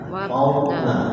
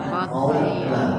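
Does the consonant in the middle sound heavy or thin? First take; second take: heavy; heavy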